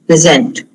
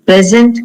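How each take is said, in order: First: PreSENT, the verb, stressed on the second syllable; "present" with reduced first syllable, weight on the end. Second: PRESent, the noun, stressed on the first syllable; "Present" stressed up front, as a noun. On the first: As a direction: hit SENT in "present", pitch falling. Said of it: "So that becomes a verb". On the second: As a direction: hit PRES in "Present", voice rising. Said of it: "if the stress is on the first syllable". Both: Shown as a demonstration.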